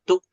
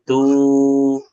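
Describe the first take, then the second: First: The syllable is cut off abruptly. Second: The syllable is drawn out long. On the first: The speaker calls it wrong. "jangan tuk" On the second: The speaker calls it right. "Dipanjangkan saja, jangan tuk, tapi tu"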